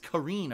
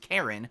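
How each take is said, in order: First: The name is said like Kareen. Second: The name is said like Karen. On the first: The speaker calls it right. "but it's Kareen apparently" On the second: The speaker calls it wrong. "you think it's Karen"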